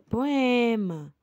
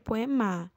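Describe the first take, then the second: First: The stress is on the middle syllable. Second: The stress is on the last syllable. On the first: The speaker calls it right. "é poema. Então, é o E, que é a paroxítona, é a penúltima" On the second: The speaker calls it wrong. "não é o ma que é o mais uh, forte, que eu, senão ficaria poema"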